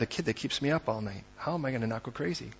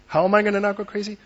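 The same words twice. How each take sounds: First: Quiet, worn-out murmur; weary and low. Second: Desperate. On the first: Preacher voicing an exhausted parent to the congregation, quiet and weary. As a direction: say it like you're too tired to cope. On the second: Preacher voicing a frantic parent to the congregation, fast and pressed. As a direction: blurt it out, close to panic. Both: Acted.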